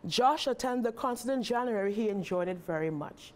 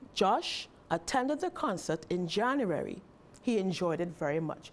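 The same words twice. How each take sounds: First: There is no pause after January. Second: There is a pause after January.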